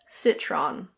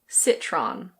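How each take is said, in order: First: It is said with an American English pronunciation. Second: It is said with an American English pronunciation.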